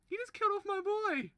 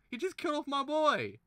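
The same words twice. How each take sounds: First: Much higher, strained shriek, stress on "killed"; even more pained squeal; squealing outrage. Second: Real anguished shout; outraged cry. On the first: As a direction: shriek it, voice cracking upward. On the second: Outraged at death. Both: Real, not acted.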